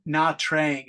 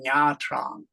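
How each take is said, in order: First: The name is said the way foreigners say it. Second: The name is said the native Vietnamese way. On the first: The speaker calls it wrong. "some foreigners say Nha Trang" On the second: The speaker calls it right. "it should be Nha Trang"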